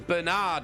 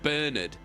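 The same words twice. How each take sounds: First: The name is said in an American way. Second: The name is said in an English way. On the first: "the American way of pronouncing it" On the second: "the English way of pronouncing it"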